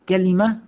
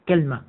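First: The word has three syllables, ka-li-ma. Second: The word has two syllables, kal-ma. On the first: This is the most eloquent form, of the Hijaz people. "كلمة على وزن نبقة وهي الفصحى" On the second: This is a dialect form of the Tamim tribe. "الوزن الثالث على وزن تمرة"

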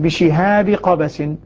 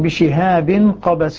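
First: The first word ends in a plain i vowel. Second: The first word ends with an added n sound. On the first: The two words form a possessive construction. "والباقون يقرؤونها بكسرة بدون تنوين" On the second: The two words are read as noun and description. "الكوفيون يقرؤونها بالتنوين"

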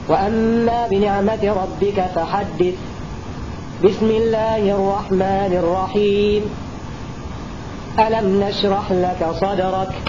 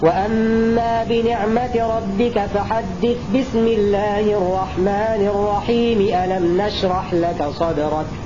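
First: Pauses come before and after the basmala. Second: There are no pauses around the basmala. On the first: Each part is kept separate from the others. "عن البسملة عن بداية السورة التالية" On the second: All three parts are joined together. "وصل آخر السورة مع البسملة مع بداية السورة التالية"

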